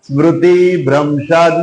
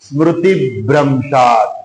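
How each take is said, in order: First: The final vowel of smriti is drawn out long. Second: The vowel is short, linked straight into bhramshad. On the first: The speaker calls it wrong. "સ્મૃતિ બોલો તો તી દીર્ઘ થઈ જાય" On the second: The speaker calls it right. "જોડાક્ષર આવતો હોય ને એનો અડધો અક્ષર તરત જ બોલી જવાનો"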